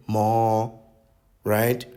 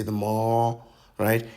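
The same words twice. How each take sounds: First: "mall, right?" lifted higher and louder at the end; pitched-up uptalk. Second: "the mall, right?" with the end lifted like a question; uptalk demo. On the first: Mocking ladies' uptalk on "mall". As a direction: swing "mall" up into a question. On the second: Mocking how ladies say "the mall". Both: Shown as a demonstration. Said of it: "You pitch up the word right at the end".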